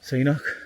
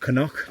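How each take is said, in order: First: The word begins with a 'see' sound. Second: The word begins with a 'kuh' sound. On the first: The speaker calls it wrong. "not a Seanock" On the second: The speaker calls it right. "It's known as a Canuck"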